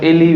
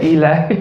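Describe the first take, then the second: First: "Eli" said as ILL-ee; short first vowel, "Eli" ending in ee; old pronunciation of Eli. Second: "Eli" said as EE-lye; long ee, then "Eli" rhymes with "lie"; new pronunciation of Eli. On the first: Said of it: "we say instead of Eli". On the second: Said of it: "we say Eli". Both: Shown as a demonstration.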